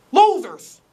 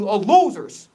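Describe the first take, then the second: First: LOSERS punched high and loud, spat out; emphatic repeat. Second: Said in the usual way. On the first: Real, not acted. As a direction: hit "Losers" harder the second time, disgusted.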